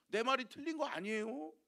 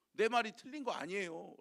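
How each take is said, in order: First: Higher, "아니에요" rising like a challenge; defensive excuse. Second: "내 말이 틀린 거 아니에요" said level, as a plain statement; flat excuse. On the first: Abraham excusing himself to the king, rising and defensive. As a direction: toss the excuse back as a question. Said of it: "라고 이야기하면서". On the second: Abraham repeating his excuse, flat and matter-of-fact. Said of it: "라고 뭐예요?". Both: Retold or imitated.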